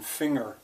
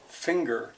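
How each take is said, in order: First: Said the German way, with no separate g sound. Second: Said the English way, with a separate g sound. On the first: "to say it in German" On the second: "when we say finger in English"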